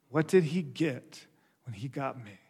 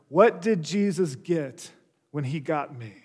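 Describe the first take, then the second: First: Softer, lower, sobering question; hushed repeat. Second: Said in the usual way. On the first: Real, not acted. Preacher has congregation question themselves, hushed and reflective. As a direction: let the question sink in quietly.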